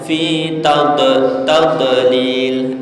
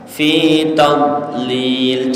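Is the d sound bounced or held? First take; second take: bounced; held. First: The d sound bounces with an echo. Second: The d sound is held without bouncing. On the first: The speaker calls it wrong. "Kalau dotnya memantul fi tad" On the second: The speaker calls it right. "tad ditahan"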